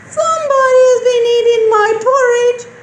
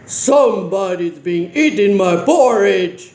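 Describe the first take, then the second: First: It is said in a tiny, small voice. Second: It is said in a big, deep voice. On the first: "in a teeny tiny voice" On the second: "in a great big voice"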